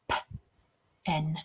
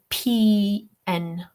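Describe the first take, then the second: First: It is said as the single word 'pen'. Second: It is said as separate letter names 'pee en'. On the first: The speaker calls it right. "we say P N" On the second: The speaker calls it wrong. "We don't say P N"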